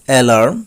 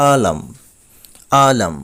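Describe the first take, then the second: First: অ্যালার্ম as "e-LARM", r sounded, rising; common mispronunciation. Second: আলাম as "aa-LAM", falling; correct pronunciation, silent r. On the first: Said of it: "আমরা বলে থাকি". (অ্যালার্ম-এর প্রচলিত উচ্চারণ "এলার্ম") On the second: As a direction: drop the r in আলাম. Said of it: "এখানে আর বাদ দেওয়া হয়েছে". (r বাদ দিয়ে সঠিক উচ্চারণ "আলাম") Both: Shown as a demonstration.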